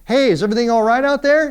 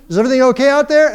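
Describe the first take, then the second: First: Higher, calling from indoors; mom calling out. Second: Higher, louder, fast worried call; mom calling louder. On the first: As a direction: call through the window like a mom checking. We hear her say out through the screen window. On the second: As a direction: shout it through the screen window. Mom calls again, louder. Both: Retold or imitated.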